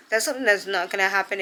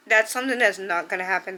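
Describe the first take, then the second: First: Said in the usual way. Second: A little emotional, pushing through fast; holding back tears as she says it; choked up. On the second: Real, not acted. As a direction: voice catching with real emotion. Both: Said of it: "Sorry, I got a little bit emotional".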